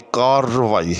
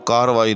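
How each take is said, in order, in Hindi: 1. r ध्वनि लंबी खिंचती है और दोहरी है। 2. r ध्वनि छोटी और इकहरी है। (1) "बल्कि कार्रवाई है। ... रे ... मुशद्दद पढ़ा जाएगा" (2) "इसका दुरुस्त तलफ़्फ़ुज़ जो है वो कार्रवाई नहीं"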